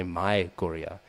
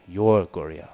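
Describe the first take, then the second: First: Said in the usual way. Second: "Your" hit louder; "Your" stressed, not "My". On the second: Shown as a demonstration. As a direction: lean on "Your" in "Your Goria". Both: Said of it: "doesn't say, "My Goria." He says, "Your Goria".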